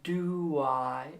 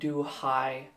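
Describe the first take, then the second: First: A light W sound links do and I. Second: An H sound links do and I. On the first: The speaker calls it right. "like a little W" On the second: The speaker calls it wrong. "not do I like a H"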